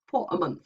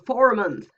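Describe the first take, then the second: First: No R sound is heard in 'for'. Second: The R in 'for' is clearly pronounced. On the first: The speaker sounds careful and posh. "very careful R P ... perceived often as very posh English" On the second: The speaker has a rural West Country accent. "if I go down to, to Cornwall, I'll hear for a month ... You can hear the R"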